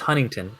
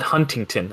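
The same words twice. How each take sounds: First: One T sound is dropped. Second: Both T sounds are clearly pronounced. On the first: This is how locals say it. The speaker calls it right. "no, it's Huntington" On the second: Other people say it this way. The speaker calls it wrong. "People call it Huntington"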